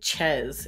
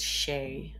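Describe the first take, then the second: First: The word begins with a ch sound. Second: The word begins with an sh sound. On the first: The speaker calls it wrong. "You don't say Chez" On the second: The speaker calls it right. "it's Shay"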